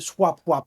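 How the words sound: The name is said in a funny accent.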